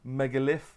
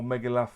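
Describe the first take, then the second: First: Megalith ending in a short "-liff"; first pronunciation guess. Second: Megalith ending in a loose "-luff"; alternative pronunciation guess. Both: Shown as a demonstration. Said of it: "I don't know how you pronounce it".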